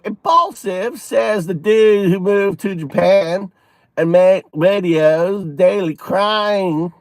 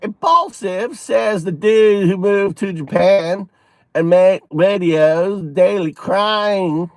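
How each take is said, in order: First: It is read in a put-on Southern accent. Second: The same.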